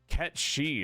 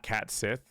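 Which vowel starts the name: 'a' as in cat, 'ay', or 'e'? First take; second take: e; a. First: It starts like 'ket' and ends with 'shee'. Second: It starts like 'cat' and ends with 'sith'. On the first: The speaker calls it right. "is how it's pronounced" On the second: The speaker calls it wrong. "It's not Cat Sith"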